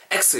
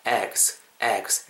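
First: "X" as ek-sseu, with a hard Korean ss; wrong pronunciation. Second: "eggs" with a soft, barely voiced gs ending; barely sounded consonants. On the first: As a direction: hit a tense s and added vowel in "X". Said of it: "이렇게 하지 마시고". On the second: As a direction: let the end of "eggs" fade, no added vowel. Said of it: "그 발음을 거의 안 한다 생각하시고". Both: Shown as a demonstration.

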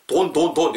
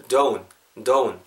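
First: "Don't, don't, don't" with a plain pure o; flat vowel "don't". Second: "don't" as a rounded "doh-oon"; "don't" with u-glide. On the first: Teacher showing learners how not to say it, "Don't" without the glide. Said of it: "이렇게 발음하지 마시고". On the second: Teacher modelling for learners, "don't" with an oo sound inside. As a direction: glide the o of "don't" into an oo, lower pitch. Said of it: "약간 이렇게 우 사운드 들어가는 거예요". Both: Shown as a demonstration.

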